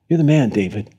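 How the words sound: It is said gently, in a warm, friendly way. The speaker is telling a friend a hard truth. "Just like a friend would"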